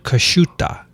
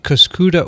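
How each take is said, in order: First: It is said in an Italian style. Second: It is said in a plain English style. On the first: "or if I were Italian" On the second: "I would pronounce it Cuscuta"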